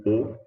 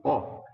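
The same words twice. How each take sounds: First: O said closed, like the ô in avô; a tight rounded closed O. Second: O said open, like the ó in cipó; a wide open O sound. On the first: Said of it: "a gente pode pronunciar como O". (O fechado, como em avô) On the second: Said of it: "e também como O". (O aberto, como em cipó) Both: Shown as a demonstration.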